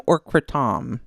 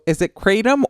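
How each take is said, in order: First: Kratom said kruh-TAHM, stress on second syllable; alternative pronunciation. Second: Kratom said KRAY-tum, stress on first syllable; first pronunciation option. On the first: Host offers the other pronunciation, kratom as kruh-TAHM. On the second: Host asks which pronunciation is right, kratom as KRAY-tum. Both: Shown as a demonstration. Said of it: "is it kratom or kratom".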